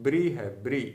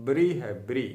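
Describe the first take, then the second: Both takes have the same delivery.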